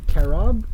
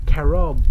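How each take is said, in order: First: CAROB rising at the end, as a question. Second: Said in the usual way. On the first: Real, not acted. Candy reviewer puzzled by an ingredient, questioning.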